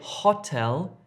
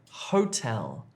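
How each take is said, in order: First: The o is a short vowel, as in hop. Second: The o is a long gliding oh vowel. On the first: The speaker calls it wrong. "Don't say hotel" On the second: The speaker calls it right. "if you're trying to say hotel"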